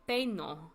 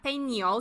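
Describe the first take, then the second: First: The middle sound is a plain n. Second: The middle sound is an ny sound. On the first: The speaker calls it right. "this one's a regular N" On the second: The speaker calls it wrong. "Not peño. Some students mess it up"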